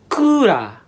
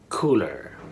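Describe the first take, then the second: First: It is said with Japanese sounds, as ku-ra. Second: It is said with English sounds, ending in -er. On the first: An air conditioning unit. "it's pronounced as kura" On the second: A box for chilling drinks. "That's how English speakers understand coolers"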